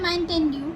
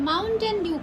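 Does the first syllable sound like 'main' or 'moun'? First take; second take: main; moun. First: The first syllable sounds like 'main'. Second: The first syllable sounds like 'moun'. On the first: The speaker calls it wrong. "আবার বলে মাইনটেন ডিউ" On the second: The speaker calls it right. "বলো মাউন্টেন Dew খাবো"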